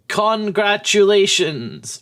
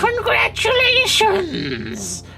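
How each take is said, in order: First: It is said in the speaker's normal voice. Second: It is said in a put-on witchy voice.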